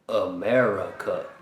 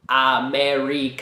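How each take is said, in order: First: The first vowel is a weak 'uh' sound. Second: The first vowel is a full, clear vowel. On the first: The speaker calls it right. "I'm saying America" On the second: The speaker calls it wrong. "I'm not saying America"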